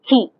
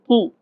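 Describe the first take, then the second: First: The k is released with a puff of air. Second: The k is released without a puff of air. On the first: "they'll say ki in English" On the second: "They don't say ki"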